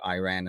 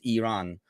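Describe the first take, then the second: First: The name is said with an American pronunciation. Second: The name is said with a Turkish pronunciation. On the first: "I might have Americanized it over time and occasionally said Iran" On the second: "in Turkish it's Iran"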